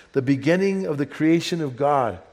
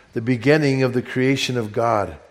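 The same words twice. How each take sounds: The two takes are said the same way.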